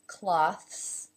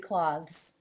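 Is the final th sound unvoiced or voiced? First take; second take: unvoiced; voiced. First: The final th sound is unvoiced. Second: The final th sound is voiced. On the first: "The first with an unvoiced ending" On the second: "it can also be voiced at the end"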